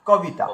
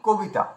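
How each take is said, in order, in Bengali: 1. প্রথম সিলেবলে 'a' স্বরধ্বনি আছে। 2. প্রথম সিলেবলে 'o' স্বরধ্বনি আছে। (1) "যেমন ভাবে আছে তেমন ভাবে উচ্চারণ করো" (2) "আমরা বলি কবিতা"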